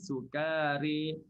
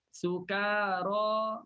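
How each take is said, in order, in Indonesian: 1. Vokal terakhir condong ke bunyi 'e'. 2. Vokal terakhir adalah 'a' terbuka biasa. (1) "Maka dibaca dengan imalah" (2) "sukara bunyi sama"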